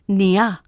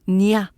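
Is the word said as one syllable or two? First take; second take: two; two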